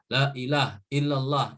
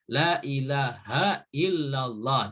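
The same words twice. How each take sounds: First: The phrase is rushed with short vowels. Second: The phrase is slower with a lengthened la. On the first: The speaker calls it wrong. "berzikir terlalu cepat ... Itu salah" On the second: The speaker calls it right. "Jadi harus la ilaha"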